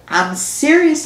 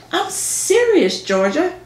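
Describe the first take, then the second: First: Mock-mature, raised pitch; grown-up voice. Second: High, slow, drawn-out insistence; insistent. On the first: Georgia to teasing Ginger, mock grown-up voice. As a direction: put on a grown-up, firm tone. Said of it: "in my best grown-up voice". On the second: Acted. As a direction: stretch the word serious, pleading. Repeating after Ginger laughs it off.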